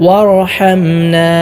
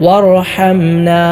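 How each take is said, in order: Both takes have the same delivery.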